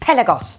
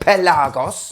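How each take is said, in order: First: The start sounds like the word pelican. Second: The start does not sound like pelican. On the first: The speaker calls it wrong. "which just makes me think of a pelican" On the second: The speaker calls it right. "as it should be"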